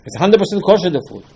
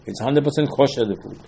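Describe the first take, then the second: First: "It's hundred percent kosher" raised high in mock objection; higher mock protest. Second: Said in the usual way. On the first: Shown as a demonstration. Rabbi voicing a congregant's objection, mock-indignant and high. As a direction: play the offended listener, pitched up.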